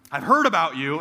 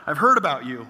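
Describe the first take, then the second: First: Louder, blunt and knowing; stranger's knowing line. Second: Louder, anxious echo in a strained voice; dread-filled echo. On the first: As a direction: let him say it with weight. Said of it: "he said". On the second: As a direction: repeat his words as if doomed. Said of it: "And I'm like". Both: Retold or imitated.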